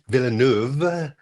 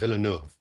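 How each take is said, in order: First: The name ends with a v sound. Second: The name ends with a soft f sound. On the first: The speaker calls it wrong. "don't say D- Villeneuve with a V" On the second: The speaker calls it right. "It's a soft F at the end"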